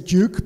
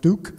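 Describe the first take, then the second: First: Duke is said with a British pronunciation. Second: Duke is said with an American pronunciation. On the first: "I'm gonna say Duke because I'm British" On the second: "I know it should be pronounced Duke"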